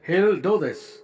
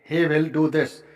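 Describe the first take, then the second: First: He will is contracted into one syllable. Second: He will is said as two full words.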